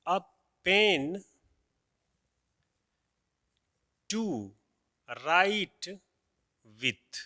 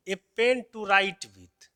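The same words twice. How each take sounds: First: Each word set apart by long pauses; one word at a time, as if writing it on the board; slow word-by-word dictation; dictated word by word. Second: The whole phrase read in one slow run, pen stressed; slow, loud teacher read-out. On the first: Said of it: "कि ए". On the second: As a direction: read the phrase out slowly for the class. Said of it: "अब जैसे देखिए". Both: Shown as a demonstration.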